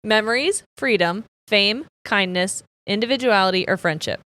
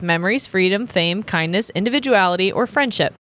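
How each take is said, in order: First: The list is read slowly. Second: The list is read quickly.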